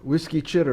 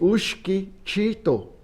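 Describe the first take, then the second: First: The first word sounds like English 'whiskey'. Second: The first word sounds like 'ushki', without 'wh'. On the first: The name is taken to refer to whiskey. The speaker calls it wrong. "ce n'était pas prononcé correctement" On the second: The name refers to big canes. The speaker calls it right. "C'était Ushki Chito"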